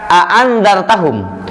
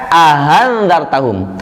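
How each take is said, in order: First: Two full glottal stops are said in a row. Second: The second glottal stop is softened and lightened. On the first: This is the word in its base form. "ada kata a'andzartahum" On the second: Some other transmissions read it this way. "Riwayat lain ada yang membaca ahandzartahum"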